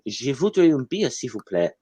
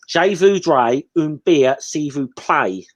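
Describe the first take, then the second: First: It is spoken with a French accent. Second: It is spoken with an English accent. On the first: The speaker calls it right. "instead of saying" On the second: The speaker calls it wrong. "will say"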